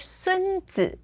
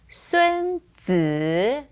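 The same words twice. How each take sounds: First: The second syllable is light and toneless. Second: The second syllable carries a low dipping tone. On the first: It means grandson. "that's first tone, fifth tone" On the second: It is the name of the Art of War author. "third tone"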